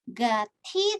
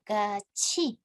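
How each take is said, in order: First: The middle consonant is a plain t sound. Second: The middle consonant is a ch sound. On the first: The speaker calls it wrong. "bukan dibaca gati" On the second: The speaker calls it right. "dilafalkannya menjadi gaci"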